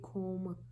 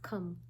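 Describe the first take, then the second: First: The vowel is a long O sound. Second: The vowel is a short uh sound. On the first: The speaker calls it wrong. "If you follow the rule of O in the middle and E in the end, this should be comb" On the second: The speaker calls it right. "O is producing its uh sound"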